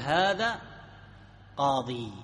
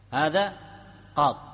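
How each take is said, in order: First: The word ends on a long 'ee' vowel. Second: The word ends on a bare consonant, no final vowel. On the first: "يصح أيضا أن تقف على الياء" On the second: "قاض بالسكون على الحرف الذي قبل الياء المحذوفة"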